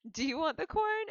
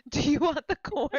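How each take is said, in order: First: Higher, casual offer of corn; Darren offering the corn. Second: Much louder, higher offer of corn; Ginger offering the corn loudly. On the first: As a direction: ask it lightly, as an offer. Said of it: "Darren's like". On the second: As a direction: push the corn offer loud and eager. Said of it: "Ginger's like". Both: Retold or imitated.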